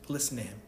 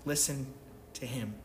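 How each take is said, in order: First: Said in the usual way. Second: LISTEN set apart, a pause before "to him", softer; slow repeated command. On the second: Shown as a demonstration. Preacher repeating the command to his congregation, softly, with a pause. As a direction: let "Listen" hang alone, then drop "to him" quietly. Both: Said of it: "the only command in this passage".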